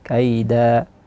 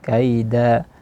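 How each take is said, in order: First: The word ends on a long a vowel. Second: The same.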